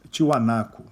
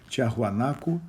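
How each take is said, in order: First: The name is said with three syllables, ending -naku. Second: The name is said with four syllables, ending -naco.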